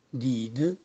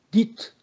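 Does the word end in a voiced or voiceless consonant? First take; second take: voiced; voiceless. First: The final consonant is a voiced d. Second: The final consonant is a voiceless t.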